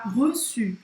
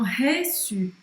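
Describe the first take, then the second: First: The first vowel is closed and rounded. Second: The first vowel is open and unrounded. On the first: The speaker calls it right. "treina essa pronúncia para você falar reçu" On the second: The speaker calls it wrong. "E não reçu"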